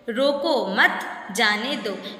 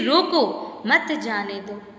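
First: There is a pause after मत. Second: There is a pause after रोको.

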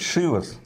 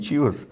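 First: The word begins with a sh sound. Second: The word begins with a ch sound. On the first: The speaker calls it right. "как правильно говорить, Шивас" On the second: The speaker calls it wrong. "Или, как правильно говорить"

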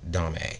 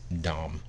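First: A vowel sound is heard after the final m. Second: The word ends on the m, nothing after. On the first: The speaker calls it wrong. "a lot of people mispronounce it" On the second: The speaker calls it right. "they don't say the last part, it's Domme"

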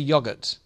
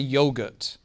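First: It is said with a British pronunciation. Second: It is said with an American pronunciation. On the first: "we say yogurt" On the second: "In America, they say yogurt"

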